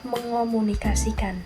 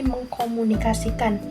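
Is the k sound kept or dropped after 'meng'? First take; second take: dropped; kept. First: The k sound is dropped after meng. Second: The k sound is kept after meng. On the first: The speaker calls it right. "bentuk yang tepat adalah" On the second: The speaker calls it wrong. "tidak sesuai dengan aturan asimilasi yang benar"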